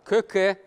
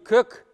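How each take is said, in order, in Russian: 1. Слово заканчивается на конечный гласный. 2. Слово заканчивается на согласный, гласного нет. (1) "Правильно говорю" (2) "не кэк"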